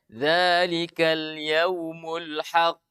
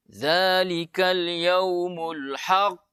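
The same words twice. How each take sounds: First: Slow, even recitation with a normal bounce on "haqq"; ordinary recitation. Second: Slow, overdone recitation with a heavy bounce on "haqq"; exaggerated recitation. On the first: Teacher showing the correct plain reading. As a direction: recite "haqq" simply, with no exaggeration. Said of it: "biasa saja". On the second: Teacher mocking an over-the-top recitation. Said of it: "tidak boleh lebay". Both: Shown as a demonstration.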